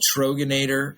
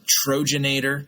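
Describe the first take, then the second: First: The consonant after 'Tro' is a hard g. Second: The consonant after 'Tro' is a j sound. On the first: "we have a beer called Troganator" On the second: "people sometimes would pronounce it Trojanator"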